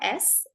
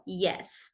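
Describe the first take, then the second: First: It starts with a bare vowel, like 'ess'. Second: It starts with a clear 'y' sound. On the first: The speaker calls it wrong. "It's not S" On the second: The speaker calls it right. "it is yeah, yes"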